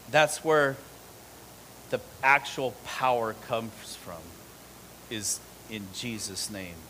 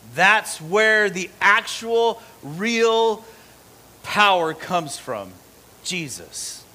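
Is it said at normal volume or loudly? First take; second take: normal; loudly. First: It is said at normal volume. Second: It is said loudly.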